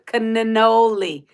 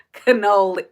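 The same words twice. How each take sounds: First: Cannoli said slowly, every N sounded, ca-nen-noli; slow "cannoli" with extra N's; drawn-out cannoli. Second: Said in the usual way. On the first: Shown as a demonstration. Reading chat's advice on how to say cannoli, slow and careful.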